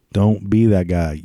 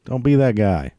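First: Don't be that guy, slower with each word stressed; slow, deliberate Don't be that guy; slow emphatic repeat. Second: Said in the usual way. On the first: Shown as a demonstration.

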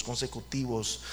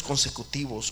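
First: "consecutivos" repeated much softer and lower, fading out; soft echo. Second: Said in the usual way. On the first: Shown as a demonstration. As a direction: let "consecutivos" die away as an afterthought. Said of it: "eran años consecutivos".

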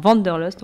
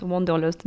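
First: English accent. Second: Said in the usual way. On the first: Real, not acted. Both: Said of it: "désolé, j'ai un accent anglais".

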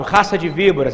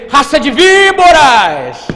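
First: Said in the usual way. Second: High, very loud, slow denunciation; prophetic shout. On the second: Acted. Preacher imagining the prophet walking in here, shouting the rebuke. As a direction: bellow it, stretching "víboras". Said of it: "E foi com a entonação".

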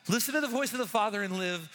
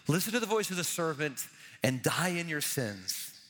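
First: Pitched up on the promise of life; hopeful exhortation. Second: Lower, falling toward a grim end; grave warning. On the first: Preacher holding out life to the congregation, hopeful exhortation. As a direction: urge them toward the Father. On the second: Preacher warning the congregation of the serpent, grave. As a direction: drop the pitch to warn of death. Contrasts death with life. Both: Shown as a demonstration.

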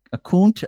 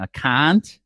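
First: "cunt" higher, in a mock New England accent; second, higher-pitched New England try at "cunt". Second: "cunt" in a New England accent, open vowel; lightly put-on New England "cunt". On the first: Trying another way for John, exaggerated New England accent. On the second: Asking John how New Englanders say it, New England accent. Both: Shown as a demonstration. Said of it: "What's it with a New England accent?".

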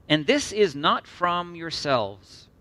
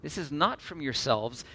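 First: "And this is not from yourselves" slow and weighty, leaning on THIS; slow emphasis. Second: "This is not from yourselves" softer, at normal pace, after a pause; repeated for emphasis. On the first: Preacher reads the critical verse to the congregation, slow and emphatic. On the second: Preacher repeats the verse line after a long pause, softer emphasis. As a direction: restate "This is not from yourselves" more quietly, stressing NOT. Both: Real, not acted. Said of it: "Long pause for emphasis".

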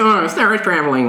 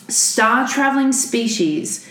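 First: Dreamy, trippy mock psychedelic voice; a hint of a stoned guru. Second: Slow, lightly voiced kindly scientist; a hint of a calm, kindly scientist. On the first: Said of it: "You didn't wanna go with the psychedelic voice". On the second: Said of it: "should I do the voice again".

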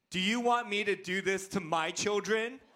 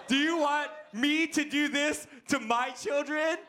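First: Mildly indignant child's challenge, mock-serious; upset son. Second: High-pitched, hammed-up indignant protest; Liam. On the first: Upset Liam confronts his dad, mild mock indignation. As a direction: imitate your upset boy confronting you. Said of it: "when he gets really upset". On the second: Mad Liam confronts his dad, hammed-up outrage. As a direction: imitate your little boy, outraged. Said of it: "when he's really mad at me".

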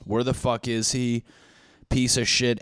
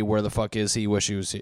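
First: Mildly irritated, pushed delivery; mock anger. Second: Understated, settling concern; mild worry. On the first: Friends angry that someone went missing, mild mock anger. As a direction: grumble it with a touch of anger. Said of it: "anger, anger, anger". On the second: Acted. Friends starting to miss him, mild mock worry. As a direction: let the anger subside into light worry. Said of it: "goes down to worry".

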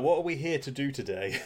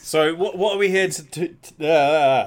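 First: Said in the usual way. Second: Louder, halting and repeating words; tongue-tied stumble. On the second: Real, not acted. Co-host fumbles asking what they are here for, tongue-tied. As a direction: trip over the question and trail into a loud uh. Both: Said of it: "barely even got that sentence out".

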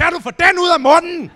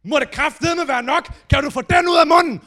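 First: High, very loud furious shout; shouting the flatmate's line back in revenge; revenge yell. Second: High, loud angry yelling; furious outburst. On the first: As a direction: burst in and scream it back. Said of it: "brassede ind og råbte". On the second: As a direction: roar at the flatmate eating toast. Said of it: "han går bare amok". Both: Retold or imitated.

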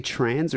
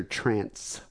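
First: "trans" ending in a buzzing z sound; trans, voiced ending. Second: "trance" ending in a sharp s sound; trance, unvoiced ending. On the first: Asking which word the caller said, "trans" with a z ending. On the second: Asking which word the caller said, "trance" with an s ending. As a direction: say "trance" with a crisp s at the end. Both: Shown as a demonstration. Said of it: "Was he saying trans or trance".

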